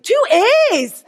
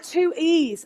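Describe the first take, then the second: First: It is said in a Scottish accent. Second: It is said in a non-Scottish accent. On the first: The listener on the phone is asking. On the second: The caller is answering.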